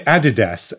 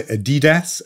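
First: Adidas stressed on the first syllable, AD-i-das; front-stressed Adidas, short i in the middle; British Adidas. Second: Adidas stressed on the middle syllable, a-DEE-das; middle-stressed Adidas with a long ee; alternative Adidas. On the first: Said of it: "I would say Adidas". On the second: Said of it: "some people say Adidas". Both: Shown as a demonstration.

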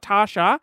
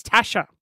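First: "Tasha" said with a long "ar" vowel, as if there were an R; "Tasha" as "Tar-sha", the wrong way; wrong Tarsha. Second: "Tasha" with a short flat "a", as in "cat"; "Tasha" said as "Ta-sha", the right way. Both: Shown as a demonstration. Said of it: "it was no R".

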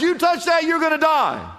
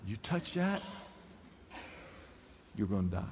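First: High, loud, stern proclamation; God's stern warning. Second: Very low, very soft dire warning; hushed warning. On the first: Pastor voicing God's command to the woman, high and stern. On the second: Pastor quietly voicing God's warning, low and hushed. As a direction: drop to a near-hush for the threat. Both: Shown as a demonstration. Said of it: "now watch this".

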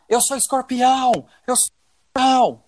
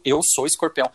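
First: Imitating a man yelling mid-act; retold shout. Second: Said in the usual way. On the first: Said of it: "ele gritava". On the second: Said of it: "e ficava gritando".

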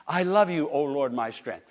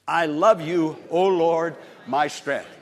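First: Said in the usual way. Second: Loud, ringing declaration of the verse; proclaiming scripture. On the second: Acted. Preacher reading verse to congregation, ringing loud. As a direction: call the verse out to the Lord.

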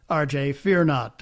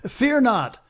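First: Said in the usual way. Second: Chuckling "Fear not", pitch much higher, laugh running through both words. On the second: Real, not acted. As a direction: laugh it out, amused and reassuring. Host reassures caller, laughing.

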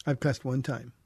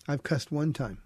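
The two takes are said the same way.

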